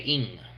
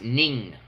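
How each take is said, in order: First: The name begins with a vowel sound. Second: The name begins with an N sound. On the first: "I heard media say Ing" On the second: "It's pronounced Ning"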